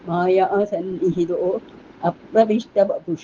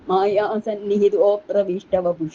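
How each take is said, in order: First: The 'a' vowel after 'sannihito' is pronounced separately. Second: The 'a' vowel merges into the preceding 'o'. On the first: "എന്ന് വായിച്ചാൽ വളരെ വേഗം നമുക്ക് മനസ്സിലാവും" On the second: "ഇങ്ങനെയും വായിക്കാം"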